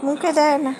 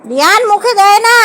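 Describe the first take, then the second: First: Gentle reminder. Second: Firm warning. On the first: First gentle telling-off of child. (নরম গলায় বারণ) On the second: Firmer repeat, calling child's name. (গলা চড়িয়ে বারণ) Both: Real, not acted.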